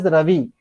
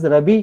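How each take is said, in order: First: The middle consonant is a v sound. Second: The middle consonant is a b sound. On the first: "we pronounce as Ravi" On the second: "they pronounce as Rabi"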